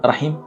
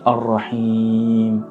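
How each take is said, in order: First: The i vowel is short. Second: The i vowel is long. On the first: It means the womb. The speaker calls it wrong. "tu n'as pas mis la prolongation" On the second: It means the most merciful. The speaker calls it right. "Il faut prolonger le i"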